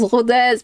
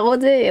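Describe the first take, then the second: First: The final z sound is pronounced. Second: The word ends on the vowel, no z. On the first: The speaker calls it right. "On prononce Rodez" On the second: The speaker calls it wrong. "pas Rodé"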